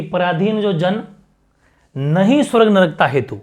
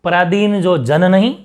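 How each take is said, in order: First: Long pause after "जन", then "नहीं" begins the next phrase; "जन" के बाद विराम. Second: "जन नहीं" run together, "नहीं" rising loud; "नहीं" के बाद विराम. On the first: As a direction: break between "जन" and "नहीं". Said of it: "इस कॉमा की वजह से". ("जन" पर ठहराव, "नहीं" अगले हिस्से में) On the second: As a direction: join "नहीं" to "जन", then stop. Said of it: "नहीं के बाद कॉमा लगा". ("जन नहीं" साथ, फिर ठहराव) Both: Shown as a demonstration.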